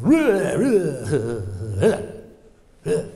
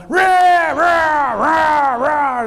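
First: Fading playful roars, now safe; cocky little roar. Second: Very loud, high roaring shout; desperate roar. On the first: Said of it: "the little cub bear goes". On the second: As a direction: roar with all the cub has. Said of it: "as loud as he could". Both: Retold or imitated.

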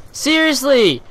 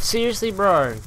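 First: Loud, high, outraged Seriously!; exasperated shout. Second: Said in the usual way. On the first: Real, not acted. Gamer yelling at a camper, shouting in disbelief.

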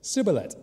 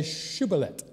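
First: "Sibboleth" starting with S instead of SH; "Sibboleth" pitched up, S replacing the SH; Ephraimite mispronunciation. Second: "shibboleth" starting with a clear SH; correct SH sound. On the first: Acted. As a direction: imitate those who can only say "Sibboleth", with a hissed S. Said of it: "All they could say was". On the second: Shown as a demonstration. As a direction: say "shibboleth" with a hushing first sound. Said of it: "the sound S H".

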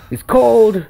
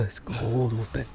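First: Louder complaint. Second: Hushed. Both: Pretend. Shivering in the snowy woods.

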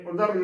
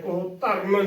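First: ਉਦਰਨ with a light, undoubled middle consonant; soft single consonant. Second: ਉਹ ਧਰਨ as ud-dharan, middle consonant held hard; doubled consonant. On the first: Teacher models correct ਉਦਰਨ, soft single consonant. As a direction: say ਉਦਰਨ softly as u-dharan, no doubling. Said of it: "ਇਸ ਨੂੰ ਪੋਲਾ ਹੀ ਬੋਲਣਾ". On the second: Teacher warns against ਉਹ ਧਰਨ, heavy doubled consonant. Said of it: "ਅਦਕ ਲਗਾ ਕੇ ਉਚਾਰਨ". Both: Shown as a demonstration.

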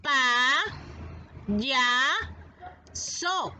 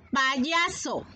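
First: "Pa, ya, so" as three separate syllables with pauses; split into syllables. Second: Said in the usual way. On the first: Shown as a demonstration. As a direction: model "Pa, ya, so" one piece at a time. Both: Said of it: "Pronuncia y repite".

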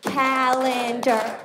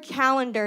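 First: CALENDAR drawn out in slow, separate syllables. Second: Said in the usual way. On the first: Shown as a demonstration. Spelling it in a cubicle, "Calendar" slowly syllable by syllable. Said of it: "spell was by clapping out syllables". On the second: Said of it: "spell the word calendar".

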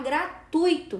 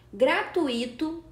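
First: Gratuito said gra-TUI-to, ui as one diphthong, stress on TUI; correct pronunciation gra-TUI-to. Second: Gratuito said gra-tu-Í-to, stressed on the i as its own syllable; slow, stress the i: gra-tu-Í-to; wrong pronunciation gra-tu-Í-to. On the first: Teacher modelling the correct gratuito after the wrong one. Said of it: "O certo é falar gratuito". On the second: Teacher demonstrating the wrong gratuito to students, slow and stressed. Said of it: "você vê que eu pronunciei gratuito". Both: Shown as a demonstration.

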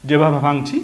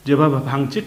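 The two takes are said the same way.

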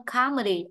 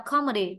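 First: "comedy" with a longer, open "ah". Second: "comedy" with a short, rounded O. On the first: Teacher explaining vowel length, "comedy" with long ah. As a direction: say "comedy" as "KAH-medy". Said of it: "A nó kéo dài hơn". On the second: Teacher explaining vowel length, "comedy" with short O. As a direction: say "comedy" as "KOM-edy". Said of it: "thì O nó ngắn hơn". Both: Shown as a demonstration.

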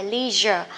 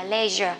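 First: LEISURE as American "LEE-zher"; long EE in LEISURE, the American way. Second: LEISURE as British "LEH-zher"; short E in LEISURE, the British way. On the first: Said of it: "Người Mỹ á thì thích đọc". (đọc LEISURE kiểu Mỹ, "li-giơ") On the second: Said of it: "người Anh thì thích đọc là". (đọc LEISURE kiểu Anh, "le-giơ") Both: Shown as a demonstration.

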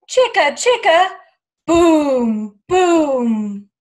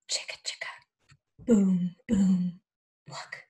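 First: Loud, booming chant. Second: Chanted, hushed whisper, low on boom; chanted, breathe it out like a secret at night. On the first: Teacher chants the crash to the children, loud. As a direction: belt out the chant as the tree crashes. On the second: Chanted, teacher hushes the children at moonrise, whispering. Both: Acted.

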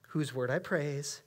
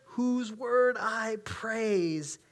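First: Said in the usual way. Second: Whose word I praise stretched slow and lifted; second time, drawn out. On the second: Acted. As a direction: lean into the repeat, very slowly. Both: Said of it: "he has to say it twice".

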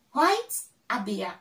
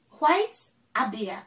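Both takes have the same delivery.

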